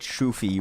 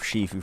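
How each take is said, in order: First: The name is said with an 'oo' first vowel. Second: The name is said with an 'ee' first vowel. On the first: The speaker calls it wrong. "I said Shoofy once by mistake" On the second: The speaker calls it right. "instead of Shifu"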